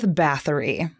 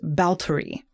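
First: The name is said with a th sound. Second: The name is said with a t sound. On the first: The speaker calls it wrong. "that is actually not the correct way to pronounce her name" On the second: The speaker calls it right. "in Hungarian, it's pronounced Bautory"

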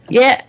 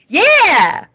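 First: The yeah sounds flat and insincere. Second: The yeah sounds warm and genuine. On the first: The speaker calls it wrong. "Why did that not sound genuine?" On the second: The speaker calls it right. "Let me try again"

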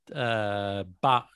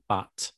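First: The final t is a glottal stop. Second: The final t is a clear t. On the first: This is the speaker's regional habit. "Sometimes I have this glottal stop" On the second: This is the standard pronunciation. "instead of but"

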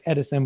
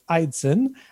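First: The name begins with a short 'eh' vowel. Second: The name begins with a long 'eye' vowel. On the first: This is how the spelling seems to read. The speaker calls it wrong. "It looks like Edison" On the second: This is how the name is actually said. The speaker calls it right. "but it's Eidson"

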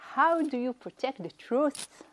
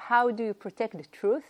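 First: It is said in an imitated, put-on accent. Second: It is said in the speaker's normal accent.

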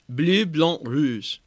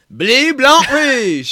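First: It is said in a plain French accent. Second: It is said in a Southern Creole accent.

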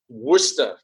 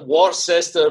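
First: The word is said in its shorter local form. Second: The word is read out as it is spelled. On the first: The speaker calls it right. "for some reason it's pronounced Worcester" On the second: The speaker calls it wrong. "It looks like Worcester"

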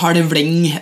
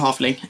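First: It is said in dialect with a heavy L. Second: It is said plainly, without a heavy dialect L. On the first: "på dialekt så blir det sånn halvling" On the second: "så da sier jeg bare halvling"

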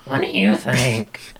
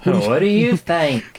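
First: It is said in a Marge Simpson-like voice. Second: It is said without a Marge Simpson-like voice.

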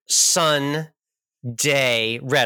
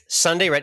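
First: It has a clear pause between Sun and Day. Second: It runs together quickly with no pause. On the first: The speaker calls it right. "We got to make sure that we enunciate the pause" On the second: The speaker calls it wrong.

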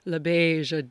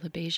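First: The name is said with dramatic, showy flair. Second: The name is said flatly, without extra flair. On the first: The speaker calls it right. "You have to say LaBeija, darling" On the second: The speaker calls it wrong. "you can't just say LaBeija"

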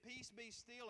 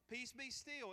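First: It is said in a calm, commanding tone. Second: It is said in an exasperated, pleading tone.

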